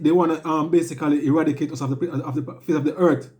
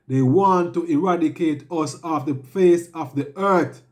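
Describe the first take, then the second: First: The sentence is spoken quickly. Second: The sentence is spoken slowly. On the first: The speaker calls it wrong. "I went too fast just now" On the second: The speaker calls it right. "let me repeat it slower"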